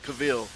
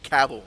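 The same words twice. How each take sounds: First: The name ends like the word Vil. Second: The name rhymes with the word travel. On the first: The speaker calls it wrong. "It's not Cruella de Vil" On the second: The speaker calls it right. "It's Cavill like travel"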